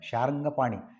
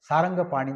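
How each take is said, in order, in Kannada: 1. ಹೆಸರು 'sh' ಶಬ್ದದಿಂದ ಶುರುವಾಗುತ್ತದೆ. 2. ಹೆಸರು ಸಾದಾ 's' ಶಬ್ದದಿಂದ ಶುರುವಾಗುತ್ತದೆ. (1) "ಇಲ್ಲಿ ಶಾರಂಗದು ಶಾರಂಗಪಾಣಿ" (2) "ಸಾರಂಗ ಅಂದರೆ ಜಿಂಕೆ"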